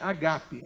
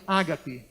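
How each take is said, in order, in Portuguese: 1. O acento está na segunda sílaba. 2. O acento está na primeira sílaba. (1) "é paroxítona. O acento, nesse caso, é agape" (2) "proparoxítona"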